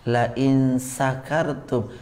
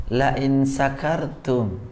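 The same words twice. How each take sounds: Both takes have the same delivery.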